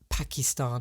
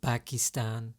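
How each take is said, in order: First: The word begins with a P sound. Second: The word begins with a B sound.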